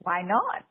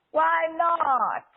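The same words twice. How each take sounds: First: Said in the usual way. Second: "Why" high and loud, falling at the end; high, loud "Why" dropping down on "not"; emphatic statement. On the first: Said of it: "is not a question". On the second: Shown as a demonstration. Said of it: "is not a statement".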